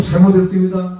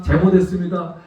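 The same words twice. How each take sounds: First: Louder, begging "잘못했습니다" with full force; pleading apology. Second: Said in the usual way. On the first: Retold or imitated. Father begging forgiveness from the furious driver, loud. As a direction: plead "잘못했습니다" hard, head bowed. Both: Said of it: "계속".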